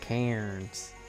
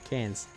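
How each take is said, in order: First: The word is pronounced the way it is spelled. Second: The word is pronounced the local, clipped way. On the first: "Instead of Cairns" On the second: "we pronounce it different"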